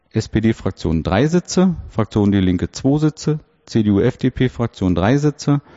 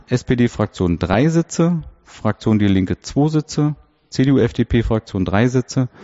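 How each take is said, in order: No difference in how they are said.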